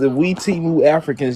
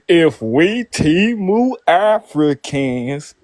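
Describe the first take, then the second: First: The phrase is said at a normal pace. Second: The phrase is said slowly and deliberately.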